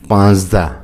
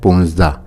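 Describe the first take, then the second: First: The first vowel is a long 'a'. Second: The first vowel is an 'u' sound. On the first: This is the written form. "पाँचदा लफ्ज़ है लिखने में" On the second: This is the everyday spoken form. "गुफ्तारी में पूंजदा पढ़ा जाता है"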